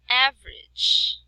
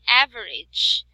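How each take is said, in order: First: The middle vowel is dropped, giving two syllables. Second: The middle vowel is sounded as a full syllable. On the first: The speaker calls it right. "It is average" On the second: The speaker calls it wrong. "we cannot say average"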